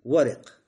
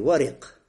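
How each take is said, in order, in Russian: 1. После r слышен гласный звук i. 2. После r слышен гласный звук i.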